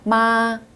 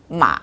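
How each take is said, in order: First: The pitch stays high and level throughout. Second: The pitch dips down, then rises slightly. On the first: It means mother. "높고 균일하게 쭉 발음하시면 됩니다" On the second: It means horse. "내려갔다가 위로 조금 올라가는 음"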